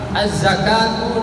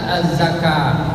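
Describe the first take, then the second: First: The word ends with a full 'tu' sound. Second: The word ends with a bare 't' sound. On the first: The reading continues without stopping. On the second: The reading stops on this word.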